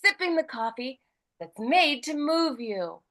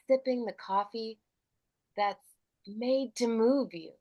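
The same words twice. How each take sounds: First: It is said in a casual, light tone. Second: It is said in a serious, sincere tone.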